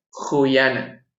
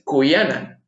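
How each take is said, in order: First: "juyana" very slowly, c like Spanish j; "juyana" drawn out, breathy j start; "juyana" with a raspy j sound, slow; correct j-like c. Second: "cuyana" with a hard k, "kuyana"; "cuyana" with a plain k sound; "cuyana" said slowly with k; wrong hard c. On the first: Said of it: "Ese apóstrofe indica que esta C suena similar a la letra J". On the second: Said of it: "no es cuyana". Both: Shown as a demonstration.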